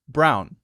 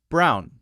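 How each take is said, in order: Both takes have the same delivery.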